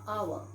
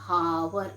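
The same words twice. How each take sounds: First: The h at the start is silent. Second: The h at the start is pronounced. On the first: The speaker calls it right. "We say hour. H is silent here" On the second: The speaker calls it wrong. "We never say I met him an hour ago"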